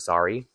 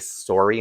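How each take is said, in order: First: The word is said without a Canadian accent. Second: The word is said in a Canadian accent.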